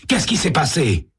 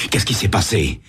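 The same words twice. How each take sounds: First: Alarmed question. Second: Said in the usual way. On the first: Acted. Sam repeats question, rising panic.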